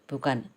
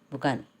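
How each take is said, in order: Both takes have the same delivery.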